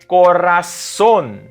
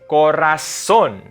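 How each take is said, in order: Both takes have the same delivery.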